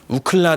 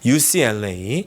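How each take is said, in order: First: The name is read as one word. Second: The name is spelled out letter by letter.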